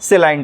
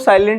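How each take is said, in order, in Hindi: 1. यह शब्द 'say' की आवाज़ से शुरू होता है। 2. यह शब्द 'sigh' की आवाज़ से शुरू होता है। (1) "ये होता है आपका सेलाइंट होता है" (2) "इसको साइलेंट नहीं कोई बोलेगा"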